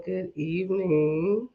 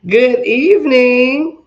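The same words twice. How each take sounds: First: Said in the usual way. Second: Big, slow drawn-out greeting; loud greeting. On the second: Real, not acted. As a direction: call it out like a host. Livestream host greeting, drawn out.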